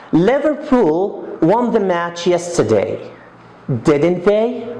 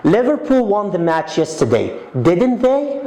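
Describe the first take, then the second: First: "didn't they" rising at the end; really ask, lift "they"; rising tag. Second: "didn't they" swept up high on "they"; a real question, tag climbing high; rising tag. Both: Shown as a demonstration. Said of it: "It's a rising tone".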